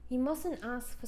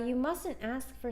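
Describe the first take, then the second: First: It is read in a put-on British-style accent. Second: It is read in the speaker's ordinary accent.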